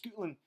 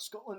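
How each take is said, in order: First: It is said in a Scottish accent. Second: It is said in a plain accent.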